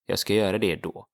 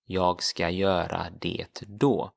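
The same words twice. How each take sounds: First: Jag ska göra det då run together quickly; teacher repeats the sentence at natural speed; natural fast Swedish. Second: Jag ska göra det då said carefully, "yahg skah yeura deh doh"; Swedish sentence. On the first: Teacher says the sentence fast, as a native would. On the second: Teacher models the sentence, careful first take. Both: Shown as a demonstration. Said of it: "as in I will do that then".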